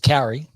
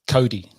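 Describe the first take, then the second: First: The middle consonant is an English r sound. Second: The middle consonant is a quick d-like tap. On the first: The speaker calls it wrong. "Bad way is Carry" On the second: The speaker calls it right. "the easiest way to say it is Cody... you just clip it real quick"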